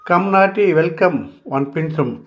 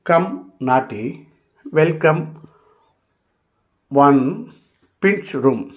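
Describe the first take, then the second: First: The phrase is said very fast, run together. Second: The phrase is said slowly, word by word.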